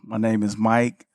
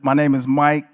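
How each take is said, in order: First: It is said quietly and low. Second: It is said louder, in an outside voice.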